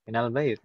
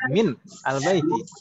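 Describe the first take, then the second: First: Min and al are joined with an a sound. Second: Min ends abruptly before al, with a break. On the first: The speaker calls it right. "dibaca fathah jadi minal" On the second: The speaker calls it wrong. "Kalau ini tetap kita paksakan min, lalu al bait harus berhenti dulu"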